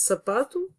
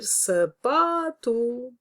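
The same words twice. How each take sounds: First: Said in the usual way. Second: "sapato" called higher and slow, long held pa; calling out, stress on PA. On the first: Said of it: "poderia dizer sapato". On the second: Shown as a demonstration. Teacher calls "sapato" as a person's name, stressed pa drawn out. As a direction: stretch the middle syllable of "sapato" like calling someone. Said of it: "se eu fizer isto com uma outra palavra".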